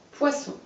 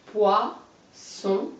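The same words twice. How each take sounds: First: Said in the usual way. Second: Poisson as poi, pause, sson; split into syllables. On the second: Shown as a demonstration. Teacher showing a pupil the syllables, Poisson split by a pause. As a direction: break Poisson into two separate syllables. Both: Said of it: "On recolle".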